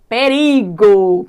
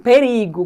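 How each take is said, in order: First: "Perigo" loud and very slow, pe-ri-go; syllable by syllable. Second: Said in the usual way. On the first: Shown as a demonstration. Teacher introducing an example to students, drawn out loudly. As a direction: stretch each syllable of "Perigo".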